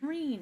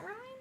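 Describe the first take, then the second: First: The name is said with an 'ee' vowel. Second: The name is said with an 'eye' vowel. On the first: The speaker calls it right. "It's Reen" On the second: The speaker calls it wrong. "I've been pronouncing it Ryan in my head"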